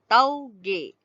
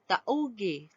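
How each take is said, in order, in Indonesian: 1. Kedua vokal meluncur bersama dalam satu suku kata. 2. Kedua vokal dipisah jadi dua suku kata. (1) "Jadi kita sebut geloncor" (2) "tak ada kan orang sebut tauge"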